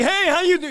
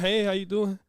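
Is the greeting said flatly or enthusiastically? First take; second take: enthusiastically; flatly. First: The greeting sounds upbeat and enthusiastic. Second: The greeting sounds flat and unenthusiastic.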